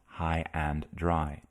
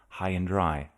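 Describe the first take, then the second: First: The word 'and' is pronounced in full. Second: The word 'and' is reduced to 'n'. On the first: The speaker calls it wrong. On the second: The speaker calls it right. "the and in binomials gets reduced to n"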